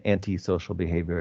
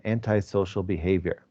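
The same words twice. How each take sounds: First: Antisocial said as an-tee-social, anti ending in ee; teacher offers the other way: antisocial with anti as an-tee; second version: antisocial as an-tee-social; anti-ee pronunciation. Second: Antisocial said as an-tye-social, anti with a long eye sound; teacher gives antisocial with anti pronounced an-tye; first version: antisocial as an-tye-social; anti-eye pronunciation. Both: Shown as a demonstration. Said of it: "Or you might say antisocial behavior as well".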